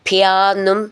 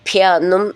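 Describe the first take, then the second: The two takes are said the same way.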